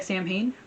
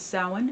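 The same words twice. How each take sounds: First: "Samhain" read as spelled, SAM-hain; spelling pronunciation. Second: "Samhain" said as SOW-in; Irish pronunciation. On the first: Vlogger showing how the Irish word looks, spelled-out reading of "Samhain". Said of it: "looks like Samhain, pronounced as". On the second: Vlogger giving the Irish festival's name, "Samhain" pronounced SOW-in. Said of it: "pronounced as Samhain". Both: Shown as a demonstration.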